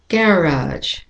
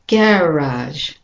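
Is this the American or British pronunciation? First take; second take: British; British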